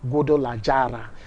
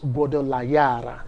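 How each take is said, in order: First: The name is said with a Nigerian-style pronunciation. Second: The name is said with a Spanish-style pronunciation. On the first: The speaker calls it wrong. "if we want to pronounce them with the way Nigerians pronounce" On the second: The speaker calls it right. "you have to pronounce them exactly"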